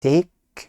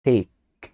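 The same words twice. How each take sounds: First: "take" said with a rising question tune. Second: "take" said with a falling final tune. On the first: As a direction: lift "take" up at the end. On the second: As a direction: drop "take" down firmly. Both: Shown as a demonstration. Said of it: "هنا بيقول لي takes".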